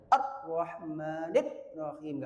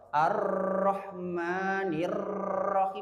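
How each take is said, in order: First: The r sound is held back and cut off. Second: The r sound flows on too long. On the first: "tidak boleh syiddah. Ar-Rahmanir Rahim, nggak boleh" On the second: "rikhwah atau Ar-Rahmanir Rahim, itu berlebihan"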